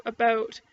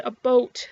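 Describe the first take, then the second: First: Said in the usual way. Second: "a boat", the vowel rounded to a plain O; about pronounced as "a boat". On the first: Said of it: "instead of about". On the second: Retold or imitated. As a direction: say "a boat" with a long O, not "about". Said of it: "apparently I said a boat".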